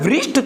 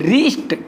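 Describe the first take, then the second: First: It starts with a w-like sound. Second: It starts directly with the r sound. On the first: The speaker calls it wrong. "वृष्ट थोड़ी ना बोलेंगे" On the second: The speaker calls it right. "इसको क्या बोलेंगे"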